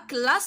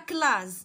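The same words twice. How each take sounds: First: The middle consonant is a hissing s sound. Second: The middle consonant is a buzzing z sound. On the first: The speaker calls it right. "انا بغيت نقراها كلاس، دونك غادي ندير deux S" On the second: The speaker calls it wrong. "إلا كنت دايره غير اس وحده غادي نقراها كلاس"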